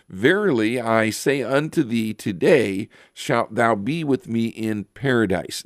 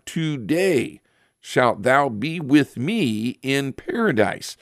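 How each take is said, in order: First: Said in the usual way. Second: Today said high and apart, then a pause before shalt thou be with me in paradise; stress on Today. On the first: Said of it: "and then there's a comma". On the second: Shown as a demonstration. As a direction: hit Today hard and let it hang before the rest. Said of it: "Today, not tomorrow".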